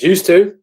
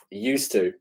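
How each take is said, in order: First: Higher and louder, punched out; "Used to." fired out loud and high; emphatic used to. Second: Softer, muttered repeat; "Used to." dropped softly to himself; quiet echo. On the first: Answering whether he plays games. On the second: Quiet echo of his answer. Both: Real, not acted.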